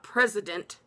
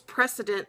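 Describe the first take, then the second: First: The middle consonant is a Z sound. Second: The middle consonant is an S sound. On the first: The speaker calls it wrong. "there's no Z in there" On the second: The speaker calls it right. "it's precedent"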